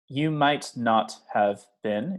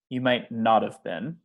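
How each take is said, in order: First: Every word is said fully and separately. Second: The words are reduced and run together.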